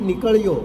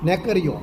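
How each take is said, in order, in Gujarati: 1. પહેલો સ્વર બંધ 'ee' છે. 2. પહેલો સ્વર ખુલ્લો 'e' છે. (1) "એમ નહીં" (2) "નેકળ્યો નેકળ્યો"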